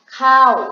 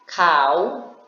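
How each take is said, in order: First: The pitch falls across the syllable. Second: The pitch rises across the syllable. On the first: "dibaca dengan siang ho atau nada jatuh" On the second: "kau dengan rising tone"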